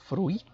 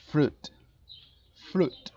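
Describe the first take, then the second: First: Fruit with the U and I both sounded, rising; mock wrong fruit. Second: Fruit said as "frut", no I; right fruit. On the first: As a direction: say fruit as "fru-it". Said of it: "pero no pronuncien fruit". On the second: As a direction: drop the I in fruit completely. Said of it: "La I se suprime por completo". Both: Shown as a demonstration.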